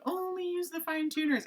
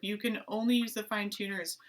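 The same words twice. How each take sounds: First: High singsong self-quote; mimicking own catchphrase. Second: Said in the usual way. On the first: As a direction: chant it high, like a much-repeated rule. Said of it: "you always hear me saying".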